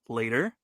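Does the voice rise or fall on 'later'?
rise. The voice rises on 'later', like a question.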